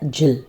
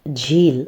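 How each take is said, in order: First: The vowel is short. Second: The vowel is long. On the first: The speaker calls it wrong. "यहाँ पे छोटी की मात्रा है, तो इसका साउंड हो जाता है झिल" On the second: The speaker calls it right. "ये है झील, क्योंकि यहाँ पे बड़ी की मात्रा दिख रही है"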